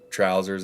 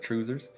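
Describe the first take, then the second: First: It is said in a British accent. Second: It is said in a Scottish accent. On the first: "maybe a British person would say tr- trousers in their dialect" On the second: "yours is tr- like trousers in the Scottish Scottish dialect"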